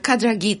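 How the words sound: The name is said the Polish way.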